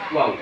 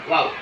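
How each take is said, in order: First: The waw is said with clearly rounded lips. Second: The waw is said with plain, unrounded lips. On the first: The speaker calls it right. "Harus waw" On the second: The speaker calls it wrong. "Bukan bukan sekedar waw"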